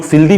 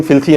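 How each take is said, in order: First: फिल्दी with a द sound; alternate pronunciation. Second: फिल्थी with a थ sound; preferred pronunciation. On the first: Teacher showing learners how some people say it, फिल्दी with a द. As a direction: say फिल्दी with द in place of थ. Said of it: "कुछ लोग फिल्दी भी बोलते हैं, द". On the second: Teacher giving learners the preferred pronunciation, फिल्थी with a थ. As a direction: say फिल्थी with थ in place of द. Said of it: "हमको लग रहा है कि इसका प्रोनाउंसिएशन है". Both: Shown as a demonstration.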